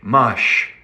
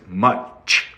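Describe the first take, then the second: First: The word ends in a soft 'sh' sound. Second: The word ends in a crisp 'ch' sound. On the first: The speaker calls it wrong. "Or sometimes people say mush" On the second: The speaker calls it right. "But it's much, like chocolate"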